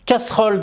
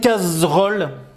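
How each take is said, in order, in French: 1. La consonne du milieu est un son s sifflant. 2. La consonne du milieu est un son z bourdonnant. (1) "le S n'a pas peur et il fait S" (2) "pourquoi on n'a pas dit casserole?"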